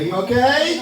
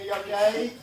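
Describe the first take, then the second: First: Asked louder, pitched up high. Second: Said in the usual way. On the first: Shown as a demonstration. Comic asking the crowd to answer louder, raised voice. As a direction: call it out so the room answers. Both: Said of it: "You can speak louder".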